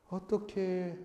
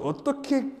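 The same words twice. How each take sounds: First: It is said softly with a pitying, gentle tone. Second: It is said forcefully with a tense, strained throat. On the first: The speaker feels pity and sympathy for someone. The speaker calls it right. "어떻게 하는 것은 자비의 목소리라고" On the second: The speaker is judging and looking down on someone. The speaker calls it wrong. "목에 힘줘서 어떻게 적어도 인간이라면 이런 것은 교만한 목소리고요"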